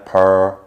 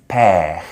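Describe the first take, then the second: First: The syllable has a rounded American er vowel. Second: The syllable has a French R and vowel. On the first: The speaker calls it wrong. "in America per, more rounded" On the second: The speaker calls it right. "It's père"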